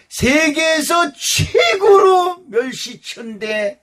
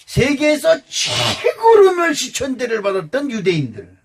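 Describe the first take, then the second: First: 최고로 stretched slow, higher and louder with a crying edge; slow preaching shout. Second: Said in the usual way. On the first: Acted. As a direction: cry out 최고로 멸시천대 slowly, voice breaking. Preacher hammers the point again.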